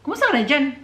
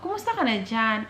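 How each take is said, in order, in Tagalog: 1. Mataas ang tono at pataas ito. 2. Mababa ang tono at pababa ito. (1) "sobrang paangat magsalita pero hindi sila galit" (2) "pababa talaga"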